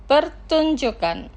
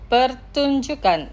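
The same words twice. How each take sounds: First: Pertunjukan drawn out slowly, syllable by syllable; slow careful pronunciation. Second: Said in the usual way. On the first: Shown as a demonstration. Teacher models Pertunjukan slowly for listeners, slow careful pronunciation. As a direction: carefully spell out Pertunjukan for learners. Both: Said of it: "Los pronunciaré lentamente".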